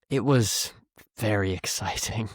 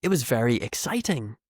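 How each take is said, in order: First: Mean the opposite, as if it was very boring; sarcastic. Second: Said in the usual way. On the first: Shown as a demonstration. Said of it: "shows in the second option". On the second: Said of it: "Do you hear the difference".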